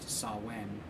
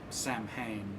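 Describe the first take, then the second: First: The name is said like 'sow-in' without 'm'. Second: The name is said with a clear 'm' sound. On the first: The speaker calls it right. "It should be pronounced Sawen" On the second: The speaker calls it wrong. "which is mispronounced"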